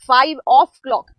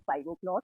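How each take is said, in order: First: The middle word is said in full as 'of'. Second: The middle word is reduced to a short 'o'. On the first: "ओ के बाद में जो apostrophe आती है ये होता है ऑफ" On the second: "इसलिए हम बोलते हैं"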